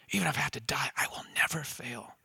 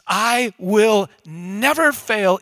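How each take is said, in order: First: Very soft, sinking almost to a whisper; hushed vow. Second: "I will never fail" loud, high and drawn out; emphatic Peter. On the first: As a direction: let the promise drop away to a near whisper. Peter's vow repeated, hushed. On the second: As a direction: defiantly hammer out "I will never fail", word by slow word. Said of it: "He says this emphatically". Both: Acted.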